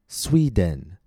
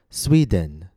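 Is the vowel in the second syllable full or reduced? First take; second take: full; full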